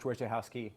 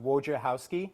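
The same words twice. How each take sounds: First: The surname is said loosely, with simplified sounds. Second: Every sound of the surname is fully enunciated. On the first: "those who don't want to completely enunciate it"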